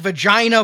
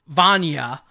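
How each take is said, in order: First: The name sounds like the word vagina. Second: The name sounds like Vanya, without a g. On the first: The speaker calls it wrong. "the very first credit to pop up says" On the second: The speaker calls it right. "it's pronounced Vanya"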